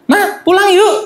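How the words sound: It is said in a small child's voice.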